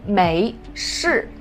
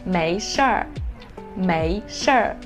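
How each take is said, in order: First: It ends without an added er sound. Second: It ends with an added er sound. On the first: "the pinyin for the first two characters are 没事" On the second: "add er after 社 and then it will become 没社儿"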